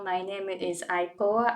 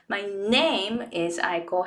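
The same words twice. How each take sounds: First: It is flat, with no stressed syllables. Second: It has strong stressed syllables and rhythm. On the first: The speaker calls it wrong. "I didn't have any stressed syllables" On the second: The speaker calls it right. "when you have stressed syllables, you will start feeling the rhythm"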